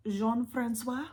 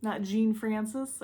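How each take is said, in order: First: Careful French Jean-Francois, slow with a nasal zhahn; French name. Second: Jean Francis said the plain English way, slowly; the anglicized Jean Francis as the wrong version; English misreading. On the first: Naming the explorer, she tries the French Jean-Francois, slow and careful. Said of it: "I believe that's how it's pronounced". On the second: Correcting herself, she says the wrong English Jean Francis slowly. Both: Shown as a demonstration.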